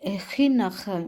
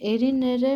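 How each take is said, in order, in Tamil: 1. r ஒலி ஒரு மென்மையான தொண்டையிலிருந்து வரும் ஜெர்மன் ஒலி. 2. r ஒலி ஒரு சாதாரண தட்டும் r ஒலி. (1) "அந்த ஆர் வந்து கொஞ்சம் கஷ்டம்" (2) "ஆராவே ஜெர்மன் இங்கிலீஷ்ல இருக்கிற ஆராவே படிக்கிறேன்"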